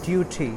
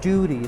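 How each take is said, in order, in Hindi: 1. बीच का व्यंजन साफ़ 't' की आवाज़ है। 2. बीच का व्यंजन नरम, फ़्लैप वाला 'd' की आवाज़ है। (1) "लेकिन ये गलत है, इसको ड्यूटी" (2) "इसको आम तौर पे जो प्रोनाउंस करते हैं वो ड्यूरी है"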